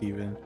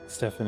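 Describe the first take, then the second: First: The name is said with a V sound. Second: The name is said with an F sound. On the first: The speaker calls it right. "It is with the V sound" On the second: The speaker calls it wrong. "I said it again"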